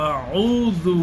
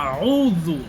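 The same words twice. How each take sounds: Both takes have the same delivery.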